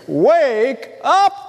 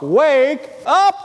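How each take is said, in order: First: Crying out. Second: A raised call, pitched up, not a full yell. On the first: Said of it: "someone crying out, saying". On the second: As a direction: call it out like a wake-up cry. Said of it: "it would be a yelled out". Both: Retold or imitated.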